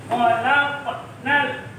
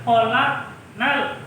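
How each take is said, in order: Both takes have the same delivery.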